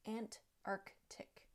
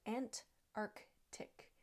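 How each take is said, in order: No difference in how they are said.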